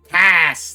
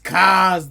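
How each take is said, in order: First: The name ends with a hissing s sound. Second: The name ends with a buzzing z sound. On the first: The name sounds less intimidating. The speaker calls it wrong. "To me, it was always Cass" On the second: The name sounds intimidating. The speaker calls it right. "I feel like Kaz is such a more intimidating pronunciation though"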